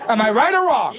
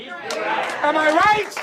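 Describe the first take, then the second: First: Said in the usual way. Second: High and stretched very slowly; long, high crowd-baiting question; drawn-out rally cry. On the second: Acted. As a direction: hold every word like a game show host. Rousing the crowd.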